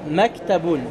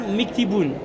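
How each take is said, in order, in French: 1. Les deux premières voyelles sont des sons a. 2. Les deux premières voyelles sont des sons i. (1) "Là, Maktaboun" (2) "tu ne diras pas Miktiboun"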